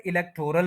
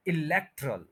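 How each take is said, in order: First: इलेक्टोरल with a long 'tor', e-lek-TOR-al; wrong pronunciation. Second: इलेक्टरल as i-LEK-trul, no o sound; corrected pronunciation. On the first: Teacher quoting the common mistake, इलेक्टोरल with full 'tor'. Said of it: "ये word इलेक्टोरल नहीं है". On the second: Teacher correcting learners, इलेक्टरल with reduced 'trul'. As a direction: stress LEK and squeeze the rest of इलेक्टरल. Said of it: "ये word है". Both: Shown as a demonstration.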